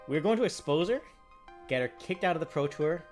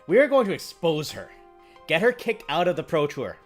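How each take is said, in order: First: It is said with a calmer, less forceful inflection. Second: It is said with a more forceful, dramatic inflection. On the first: The speaker calls it wrong. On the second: The speaker calls it right.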